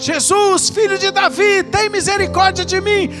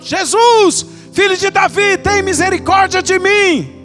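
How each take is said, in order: First: It is shouted at a loud level. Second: It is shouted even louder than before.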